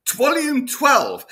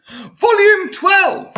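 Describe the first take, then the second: First: High, loud, slow but less stretched repeat; slightly calmer echo of the shout; shouting again in disbelief. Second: Slow, high, stretched-out cry of disbelief; drawn-out howl of astonishment; incredulous shout. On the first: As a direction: hammer the punchline home a second time. Repeats the punchline for effect. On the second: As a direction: bellow it like you can't believe it exists. Comic reveal of absurd book title. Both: Real, not acted.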